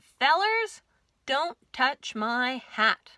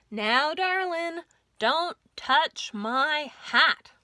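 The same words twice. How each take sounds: First: Sheriff's slow cowboy warning; gruff sheriff. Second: Slow, louder drawl, darling lifted high; sheriff's slow bedtime warning, louder; firm cowboy sheriff. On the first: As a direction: lay down the law to the fellers, slow and firm. Sheriff warns barber. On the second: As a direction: lean on touch, slow and firm. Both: Acted.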